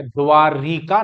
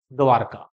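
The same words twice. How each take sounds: First: द्वारिका with an extra i sound, dwa-ri-ka; wrong form. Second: द्वारका said dwar-ka with no i, falling, softer; firm corrective द्वारका, lower and quieter; correct form. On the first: Teacher showing students the wrong word, plain. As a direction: say द्वारिका as the common mistaken spelling. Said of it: "द्वारिका नहीं होता". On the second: Teacher correcting students' spelling, firm and low. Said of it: "एक तो ये शब्द द्वारका ही होता है". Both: Shown as a demonstration.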